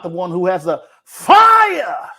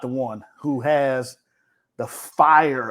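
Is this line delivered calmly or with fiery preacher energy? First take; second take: fiery; calmly. First: It is said with loud, heightened, fiery energy. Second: It is said in a calm, ordinary speaking voice. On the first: The speaker calls it right. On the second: The speaker calls it wrong.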